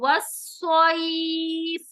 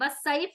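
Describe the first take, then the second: First: The s sound is heavy and emphatic. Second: The s sound is light and plain. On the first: The speaker calls it right. "स्वाद के मखरज को अदा करें" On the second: The speaker calls it wrong. "वस्सैफ नहीं है"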